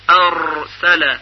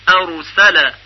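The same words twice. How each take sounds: First: ارسل with the r trilled hard and long, many taps, very slow; ارسل stretched, with a strong buzzing trill on the r; overrolled r. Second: ارسل with the r as one quick light tap; ارسل said cleanly, the r barely rolled; light trill. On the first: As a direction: roll the r of ارسل heavily and drag it out. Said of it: "که این کار اشتباه است". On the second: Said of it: "تکریر خفیف". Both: Shown as a demonstration.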